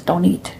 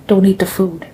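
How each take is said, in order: First: Said in the usual way. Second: Whispered, secretive warning. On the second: Retold or imitated. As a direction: whisper it so nobody else hears.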